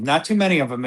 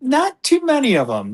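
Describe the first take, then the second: First: Said in the usual way. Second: Not too many, pitched up high; emphatic high. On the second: Real, not acted. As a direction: jump way up in pitch and insist.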